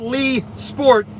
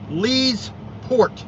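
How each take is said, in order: First: The s sound starts the second part. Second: The s sound ends the first part. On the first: The speaker calls it wrong. "or not Lee Sport" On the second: The speaker calls it right. "You got to make sure you, you, you enunciate that correctly"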